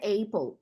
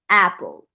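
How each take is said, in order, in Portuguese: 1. A primeira vogal é um ditongo deslizante. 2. A primeira vogal é uma vogal curta e simples. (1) "muita gente vai dizer apple, mas não é" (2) "Então vai ser apple"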